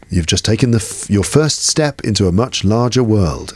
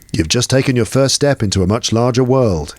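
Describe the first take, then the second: First: It is said in an imitated older character voice. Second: It is said in the speaker's normal voice.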